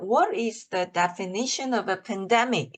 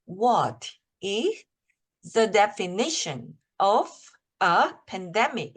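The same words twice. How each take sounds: First: The sentence is read in one smooth run. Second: The sentence is broken into chunks with pauses. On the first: "이렇게 읽어 보고" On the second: "이런 식으로 까 잘라서 읽으셔도 돼요"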